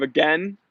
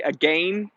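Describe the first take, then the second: First: Said in the usual way. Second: "again" rhyming with rain; "again" as a-GAIN, long second vowel; Canadian AGAIN. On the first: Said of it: "instead of again". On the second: Shown as a demonstration. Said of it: "they say again instead of again".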